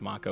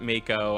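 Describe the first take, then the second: First: The name is said with a Japanese pronunciation. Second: The name is said with an English pronunciation. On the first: "I think the Japanese pronunciation is Mako" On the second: "I think we would pronounce it Mako"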